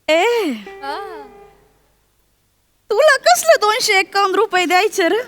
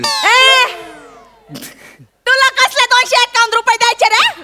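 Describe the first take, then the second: First: It is spoken in a soft, low voice. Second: It is spoken at a normal, louder volume.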